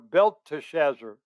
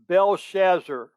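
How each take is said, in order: First: The name is said with the 'te' syllable. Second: The name is said without the 'te' syllable. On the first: "Some people pronounce it" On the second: "the T is silent and the E is silent"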